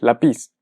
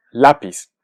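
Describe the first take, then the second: First: Lapiz as la-PIZ, as if it had no accent mark; misplaced final stress. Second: Lápiz said LÁ-piz; lápiz stressed clearly on its first syllable. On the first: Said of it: "Si no ponemos la tilde". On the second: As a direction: hit LÁ in "lápiz", let piz drop. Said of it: "escuchamos claramente que es lápiz". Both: Shown as a demonstration.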